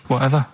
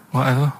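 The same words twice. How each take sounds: The two takes are said the same way.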